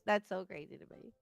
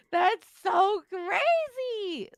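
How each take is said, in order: First: Said in the usual way. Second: High, loud and very slow, drawn out; laughing friend marvels at riders' stupidity, drawn out and loud; amazed. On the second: Real, not acted. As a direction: stretch it out in disbelief. Reacting to careless riders' feet.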